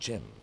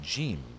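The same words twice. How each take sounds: First: The name is said with a short vowel, like Jim. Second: The name is said with a long vowel, like Gene. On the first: This is the name as intended. "instead of" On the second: A European speaker is saying the name. "her accent makes it sound like she's saying"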